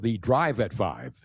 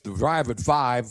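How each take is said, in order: First: Each word is carefully and crisply articulated. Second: The words are run together casually.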